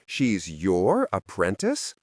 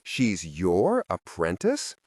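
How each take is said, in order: First: "apprentice" drawn out in disbelief; slow, rising, sceptical weight on "apprentice"; stress on APPRENTICE. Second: "She's" leaned on, slow and doubtful; slow incredulous question with the weight on "She's"; stress on SHE'S. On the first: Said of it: "Translation, "She's way too old for this". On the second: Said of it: "Translation, "She's a Valtine and a fragmented one for good measure". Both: A narrator's reading.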